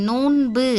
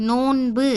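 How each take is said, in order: No difference in how they are said.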